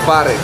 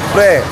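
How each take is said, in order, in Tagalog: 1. Binibigkas nang buo ang salita na may dalawang pantig. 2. Pinaikli ang salita at ginagawang isang pantig. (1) "Pre is short for pare. It's actually pare" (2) "Pre is short for pare"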